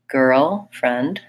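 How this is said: The two parts are said apart with a pause. "practice girl and friend separately"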